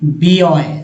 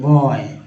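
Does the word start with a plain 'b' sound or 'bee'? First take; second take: bee; plain b. First: It starts with the full letter name bee. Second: It starts with a plain b sound. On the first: The speaker calls it wrong. "ना कि बी ऑय। ऐसा तो नहीं बोलते।" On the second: The speaker calls it right. "यहाँ पर जो है बॉय बोलेंगे"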